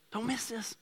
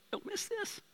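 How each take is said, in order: First: Preacher hammering the point home, soft; repeated urgent aside. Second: High, soft, hushed warning; preacher stopping the crowd to make them listen, hushed; urgent aside. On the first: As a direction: say it again, more grounded. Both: Acted.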